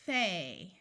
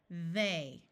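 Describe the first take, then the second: First: The th sound is made without voice. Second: The th sound is made with voice. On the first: "using the unvoiced th sound" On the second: "Now let's do it with the voice sound"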